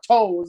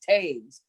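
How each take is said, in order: First: The name rhymes with toes. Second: The name rhymes with caves. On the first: The speaker calls it wrong. "no, that's not toes" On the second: The speaker calls it right. "it's Taves. Like caves, but with a T"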